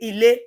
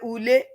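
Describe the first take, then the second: First: It is said in standard Yoruba. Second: It is said in Ijebu or Ondo dialect.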